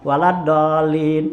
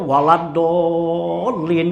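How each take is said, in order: First: The long vowel is held for only two beats. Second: The long vowel is stretched for six beats. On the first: "cukup dua rakaat dua apa dua harakat sudah" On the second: "enam harakat tuh begitu"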